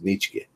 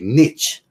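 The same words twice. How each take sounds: First: The name is said with an American pronunciation. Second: The name is said with a French pronunciation. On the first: This is how it is said in Ohio. "In Ohio, we say just" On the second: This is how it is said in France. "if you say it in France"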